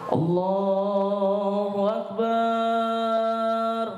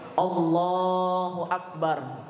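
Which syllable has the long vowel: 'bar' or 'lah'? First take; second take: bar; lah. First: The vowel in 'bar' is drawn out long. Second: The vowel in 'lah' is long, 'bar' short. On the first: The speaker calls it wrong. "barnya dipanjangin. Ini salah... itu belum betul" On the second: The speaker calls it right. "lohnya panjang, barnya pendek"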